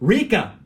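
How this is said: The name is said in a New Zealand accent.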